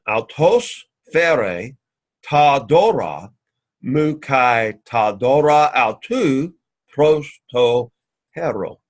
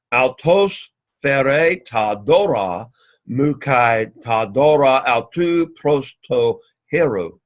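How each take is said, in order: First: Very slow, broken into chunks; drilling the Greek slowly, word group by word group; slow syllable-by-syllable repeat. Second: Slow, deliberate reading of the Greek; unhurried classroom recitation. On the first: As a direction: spell it out phrase by phrase for students. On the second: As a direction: read each word out slowly for the class. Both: Shown as a demonstration. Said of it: "let's say it again".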